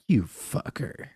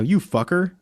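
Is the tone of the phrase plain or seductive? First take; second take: seductive; plain. First: It is said in a sultry, seductive tone. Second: It is said in a plain, unseductive tone.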